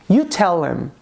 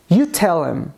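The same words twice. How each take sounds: Both takes have the same delivery.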